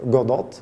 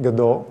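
First: Godot said GO-dot, final t sounded; alternative pronunciation. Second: Godot said guh-DOH, final t silent; French pronunciation. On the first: Speaker showing how some people say it, Godot as GO-dot. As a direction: say Godot as GO-DOT, with a hard t at the end. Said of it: "as some people say it". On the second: Speaker explaining the French origin, Godot said guh-DOH. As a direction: say Godot the French way, ending on an open oh. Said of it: "it comes from French, so it's something like". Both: Shown as a demonstration.

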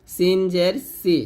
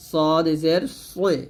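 First: Slow, light সিন and সি; thin S. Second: Slow, thick সদ and সই; heavy S. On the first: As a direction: keep সি thin. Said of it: "সিন পাতলা হবে". (পাতলা করে সি) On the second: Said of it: "সদ মোটা হবে". (মোটা করে সই) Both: Shown as a demonstration.

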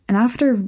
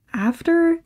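First: Said in the usual way. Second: "after" lifted far higher, drawn out and unsure; a high, reluctant "after"; hesitant high after. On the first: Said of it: "well, after". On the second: Acted. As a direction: pitch "after" way up as she hesitates. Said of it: "And after, well".

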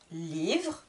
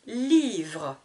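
First: Said in the usual way. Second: "Livre" stretched as Lii-vre; drawn-out syllables. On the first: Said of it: "je vous répète le vocabulaire de chaque mot". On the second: Shown as a demonstration. Teacher counting two syllables, "Livre" drawn out. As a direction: lengthen the i in "Livre". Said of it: "Deux syllabes".

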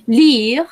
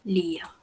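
First: Lire said loud and rising as a model; model word. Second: Said in the usual way. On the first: Shown as a demonstration. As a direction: present Lire clearly for the class. (presentar Lire en voz alta como modelo) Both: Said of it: "quiere decir leer".

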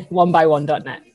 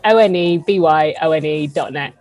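First: Said in the usual way. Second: "O N E B Y O N E" said as single separate letters; spelled out letter by letter. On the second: Shown as a demonstration. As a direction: spell "O N E B Y O N E" out one letter at a time. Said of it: "not W O N or any combination of that".

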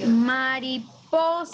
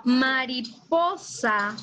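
First: Mariposa slow, with a light lift on po; slow, stressed syllables. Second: Mariposa drawn out very slowly; slow, stressed syllables. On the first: Teacher repeating Mariposa slowly for the class. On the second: Teacher slowly stressing Mariposa for the pupils. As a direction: stretch Mariposa, leaning on the syllable po. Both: Shown as a demonstration. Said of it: "Si yo digo mariposa".

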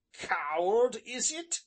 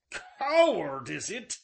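First: Louder, higher, stung outburst; offended smith's raised challenge; indignant cry. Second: Loud, high burst on the first word, then falling; furious repeat. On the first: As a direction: throw the insult back at him, rising sharply. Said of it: "cried he". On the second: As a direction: explode on "Coward", then drop. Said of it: "he repeated". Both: A narrator's reading.

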